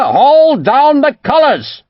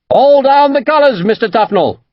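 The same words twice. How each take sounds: First: Slow, high, loud furious bellow; angry bellow. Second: High, loud command to strike colours; shouted order. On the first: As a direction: roar each word out at the officer. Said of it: "Cromwell bellowed angrily at Tufnell". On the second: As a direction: bark the order across the deck. Captain orders surrender under fire. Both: A narrator's reading.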